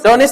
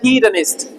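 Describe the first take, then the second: First: The word begins with a 'd' sound. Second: The word begins with a 'hee' sound. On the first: The speaker calls it wrong. "डोनिस्ट नहीं पढ़ा जाए" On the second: The speaker calls it right. "एच ई ही पढ़ते हैं ना हम"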